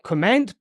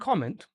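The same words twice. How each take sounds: First: The stress is on the second syllable. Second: The stress is on the first syllable. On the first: The speaker calls it wrong. "here is not comment" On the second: The speaker calls it right. "always stressed on the first syllable"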